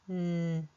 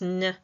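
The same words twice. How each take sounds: First: The consonant is said cleanly on its own. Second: The consonant is said with extra sound attached. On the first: The speaker calls it right. "a clean n" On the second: The speaker calls it wrong. "incorrectly pronounced n"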